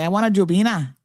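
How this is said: The name is pronounced in a Caymanian way. This is how locals say it. "We saying Jopina"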